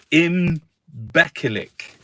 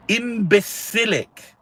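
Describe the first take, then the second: First: Imbecilic said slowly as written, im-BEK-uh-lik; slow spelled-out Imbecilic, hard k in the middle; careful spelling pronunciation. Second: Imbecilic spelled out slowly, syllable by syllable; slow careful try at imbecilic. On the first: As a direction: read Imbecilic off the page syllable by syllable. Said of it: "Pronounce it as you see it". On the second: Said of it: "how do you say it?". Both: Shown as a demonstration.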